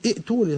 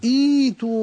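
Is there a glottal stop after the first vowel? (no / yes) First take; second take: yes; no. First: A glottal stop follows the short first vowel. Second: A long first vowel with no glottal stop. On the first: The speaker calls it wrong. "لا تقول إيتوني" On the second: The speaker calls it right. "فالهمزة الثانية الثانية ساكنة وقبلها مكسورة"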